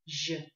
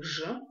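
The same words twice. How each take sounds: First: «Ж» palatalised with rounded lips; soft zh in «Ж», lips rounded; softened, rounded. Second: Said in the usual way. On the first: Shown as a demonstration. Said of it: "путём смягчения и округления губ". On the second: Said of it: "от буквы".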